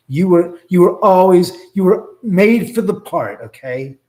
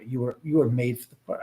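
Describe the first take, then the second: First: Louder and higher, pressing each word; emphatic insisting. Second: Said in the usual way. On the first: Real, not acted. Reassuring the restless knife spirit, loud emphatic insistence. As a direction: insist hard that he was made for it.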